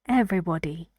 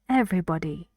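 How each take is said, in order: No difference in how they are said.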